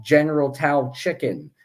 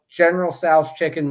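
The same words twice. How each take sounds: First: "Tao" starting on a plain T, rhyming with cow; Tao with a T sound. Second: "Tso's" said as "sows", rhyming with cows; corrected Tso's pronunciation. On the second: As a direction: say "Tso's" with an opening S sound and a final Z. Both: Real, not acted.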